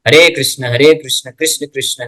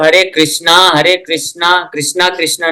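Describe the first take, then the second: First: Each Krishna ends without a final vowel. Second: Each Krishna ends with a long 'a' vowel. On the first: The speaker calls it right. "ये है proper तरीका" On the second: The speaker calls it wrong. "नहीं बोलना चाहिए"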